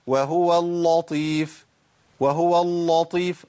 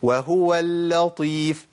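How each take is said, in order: First: Slow وهو اللطيف with a dark, thick lam; wrongly heavy lam. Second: Slow وهو اللطيف with a thin doubled lam; correct light lam. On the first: Teacher demonstrates the mistake, wrongly heavy lam. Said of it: "طب الخطأ؟". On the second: Teacher gives the correct version, light lam. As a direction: hold the lam of اللطيف light before the heavy ta. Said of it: "ده الصواب". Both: Shown as a demonstration.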